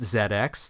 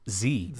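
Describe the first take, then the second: First: The letter Z is said as zed. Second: The letter Z is said as zee. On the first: This is how British speakers say it. "U K listeners pronouncing it Z X" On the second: This is how the hosts say it. "for us it's actually the Z X"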